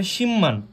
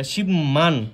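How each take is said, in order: First: শিম্মান as one word with double m; correct pronunciation. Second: Slow শিবমান with the b kept; mistaken pronunciation. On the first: Teacher giving the form one must say, correct assimilated শিম্মান. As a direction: turn the b to m in শিম্মান, "shim-man". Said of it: "বলতে হবে শিম্মান". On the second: Teacher repeating the learners' mistake, slow unassimilated শিবমান. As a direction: say শিবমান as two parts, "shib... man". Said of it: "সেটা সম্পূর্ণরূপে ভুল". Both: Shown as a demonstration.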